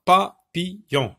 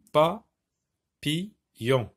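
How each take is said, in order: First: Papillon in three short beats, pa-pi-llon; higher, louder, separated papillon; syllable by syllable. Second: Papillon with long pauses, PA, PI, LLON; very slow syllables. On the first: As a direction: sound out papillon with brief gaps. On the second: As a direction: stretch the gaps widely in Papillon. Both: Shown as a demonstration. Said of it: "la syllabe pi".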